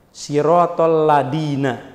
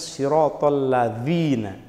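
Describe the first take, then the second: First: The last word has a plain d sound. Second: The last word has a th-like sound. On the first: The speaker calls it wrong. "apa biasanya kelirunya?" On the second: The speaker calls it right. "Harusnya siratal ladzina. Ujung lidahnya ditempel ke gigi atas"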